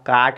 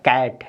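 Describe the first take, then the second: First: The vowel is a long aa sound. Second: The vowel is an open ae sound. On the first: The speaker calls it wrong. "इसको आप काट नहीं पढ़ेंगे" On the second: The speaker calls it right. "कैट है"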